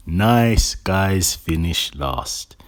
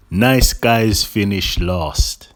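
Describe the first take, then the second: No difference in how they are said.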